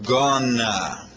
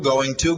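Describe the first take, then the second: First: The words merge into one reduced word. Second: Both words are said fully and separately. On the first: "se transforma em gonna" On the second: "olha só o que ocorre aqui com going to"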